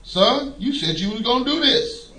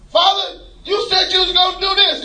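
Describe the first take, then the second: First: Level, softer answer handed back; calm reply from God. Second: Hollering. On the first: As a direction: give it back calmly, no shouting. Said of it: "And he go". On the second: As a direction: holler it up at heaven. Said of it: "I holler". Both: Retold or imitated.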